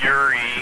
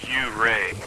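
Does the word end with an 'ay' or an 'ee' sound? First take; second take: ee; ay. First: The word ends with an ee sound. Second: The word ends with an ay sound. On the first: The speaker calls it wrong. "Everyone always pronounces it Yuri" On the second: The speaker calls it right. "but it's technically U-ray"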